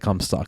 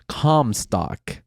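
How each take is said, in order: First: The first syllable sounds like 'come'. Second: The first syllable sounds like 'com'. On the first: The speaker calls it wrong. "don't say cum stock" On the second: The speaker calls it right. "I thought about dot com"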